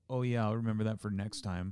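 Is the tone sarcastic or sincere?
sarcastic. The tone sounds sarcastic and mocking. The speaker does not really mean it. "But what I was doing was like"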